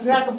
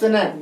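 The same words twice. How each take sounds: First: The vowel sounds like the one in 'snack'. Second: The vowel sounds like the one in 'snake'. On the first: The speaker calls it wrong. "इसको बहुत स्नैक पढ़ता है" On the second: The speaker calls it right. "इसका सही उच्चारण होता है स्नैक"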